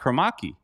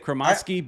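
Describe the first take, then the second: First: No s sound is pronounced before the k. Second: An s sound is pronounced before the k. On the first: This is how the player himself says it. "he actually doesn't really fully pronounce the S" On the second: This is how the game announcers say it. "that's how the announcers say it on the game"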